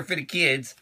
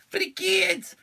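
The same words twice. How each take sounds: First: Said in the usual way. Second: Very high, silly little voice; squeaky repeat. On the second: Pretend. Echoing himself about cards for kids, squeaky mock voice.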